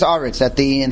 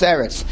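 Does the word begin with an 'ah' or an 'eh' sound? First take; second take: ah; eh. First: The word begins with an open 'ah' vowel. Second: The word begins with an 'eh' vowel. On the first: The word ends a phrase or verse. "At the end of a phrase, at the end of a pasuk, it's Aretz" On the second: The word is in the middle of a verse. "Somewhere in the middle, it's Eretz"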